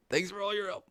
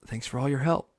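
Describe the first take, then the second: First: Soft, high-pitched mock sign-off; Steve. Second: Softer sign-off with a rising end; Steve. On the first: TV host's farewell repeated in mockery, soft high voice. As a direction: squeeze it out small and high, imitating. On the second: Retold or imitated. TV host thanking the viewers, gently imitated. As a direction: imitate the kids' host saying goodbye. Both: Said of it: "that motherfucker was like".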